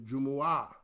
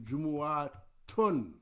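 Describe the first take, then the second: First: The word ends without the final -un syllable. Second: The word ends with a final -un syllable. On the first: "we cut off the un and just say Jumu'ah" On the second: "it's actually Jumu'atun"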